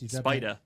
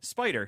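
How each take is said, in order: First: The final R sound is dropped. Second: The final R sound is clearly pronounced. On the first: "He's dropping that ER at the end" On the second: "So I say Spider"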